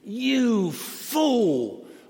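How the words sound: It sounds high and condescending.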